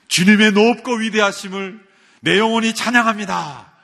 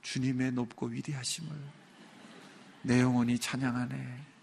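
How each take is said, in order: First: It is said in a loud voice. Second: It is said in a quiet voice.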